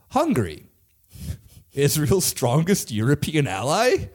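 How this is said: The voice rises at the end like a question. It sounds like a question. The speaker calls it wrong. "I said that as a question"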